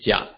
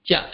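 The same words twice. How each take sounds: First: The syllable is said in the third tone. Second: The syllable is said in the fourth tone. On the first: Tone sandhi applies before another syllable. "it will be the third tone in Jia Ba" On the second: The word is said on its own. "Jia is the fourth tone"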